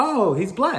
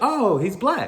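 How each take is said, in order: First: It sounds happy and approving. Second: The same.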